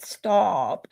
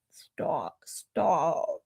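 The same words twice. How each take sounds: First: Said in the usual way. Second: Breathy whisper, much softer; embarrassed whispered stop. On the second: Real, not acted. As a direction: whisper it, shyly waving it off. Brushing off a compliment, whispered.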